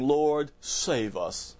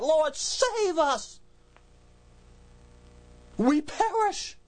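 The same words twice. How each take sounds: First: Said in the usual way. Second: Much higher, slow, screaming plea; terrified scream. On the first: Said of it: "didn't do that with a nice, calm voice". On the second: Shown as a demonstration. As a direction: cry out in terror to be saved from drowning. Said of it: "waking up and screaming that".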